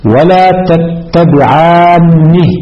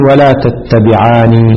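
First: "تتبعانه" with a long aa and doubled n; higher, very slow "ولا تتبعانه" stressing the double n; doubled, heavy nun. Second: "تتبعاني" with a single, undoubled n; light, single nun. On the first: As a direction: hold the geminated n in "تتبعانه", tattabi'aanni. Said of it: "بالتشديد". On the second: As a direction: say "تتبعاني" slowly as tattabi'aani. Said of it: "بتخفيف النون". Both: Shown as a demonstration.

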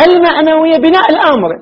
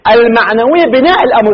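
First: Raised, pointed emphasis for attention; emphatic repeat. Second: Said in the usual way. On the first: Shown as a demonstration. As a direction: hit بناء الأمر hard so the students take note. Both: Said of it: "التفت إخواني جيدا".

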